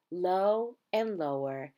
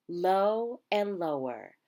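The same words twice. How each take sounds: The two takes are said the same way.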